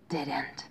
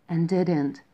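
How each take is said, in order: First: Hushed whisper, falling away. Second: Said in the usual way. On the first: A narrator's reading. Hare hushes to tell friends of the silence, whispered.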